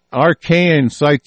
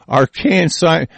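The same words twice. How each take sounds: First: Said in the usual way. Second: Slow scornful echo with a laugh; mocking repeat. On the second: Real, not acted. Ranter scoffing at scientific jargon, mocking it with a laugh. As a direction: sneer at the fancy word. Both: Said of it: "is that what that is?".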